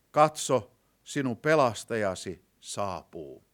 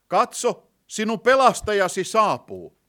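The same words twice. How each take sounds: First: Said in the usual way. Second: Loud, high-pitched herald's announcement; forceful, raised preaching voice; ringing proclamation. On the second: Real, not acted. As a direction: proclaim it out to the whole congregation. Preacher repeats verse as proclamation.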